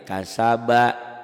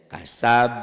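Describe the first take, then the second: First: Kasaba slow and loud, final -ba a full syllable; full ending. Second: Kasab loud, halting on b with a bounced echo; qalqalah stop. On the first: Teacher quizzes on the unstopped word, full ending. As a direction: sound the last vowel of "kasaba" fully. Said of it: "Qalqalah bukan?". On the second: Teacher shows the reading when one stops, bouncing qalqalah. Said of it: "Jika berhenti membacanya". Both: Shown as a demonstration.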